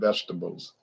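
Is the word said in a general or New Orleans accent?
general. It is said in the speaker's usual accent.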